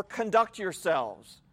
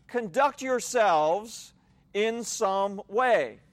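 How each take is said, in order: First: "Conduct yourselves" said slowly as a finished command, falling at the end; slow quoted translation. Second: "Conduct yourselves" drawn out slowly and left hanging on a rising tune; slow rising repeat. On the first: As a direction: read the phrase "Conduct yourselves" slowly and firmly, closing it down. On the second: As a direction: stretch out "Conduct yourselves" and lift the end as if more is coming. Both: Shown as a demonstration. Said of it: "it would literally be translated more".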